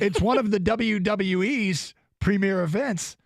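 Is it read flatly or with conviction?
with conviction. It is read with more conviction and enthusiasm.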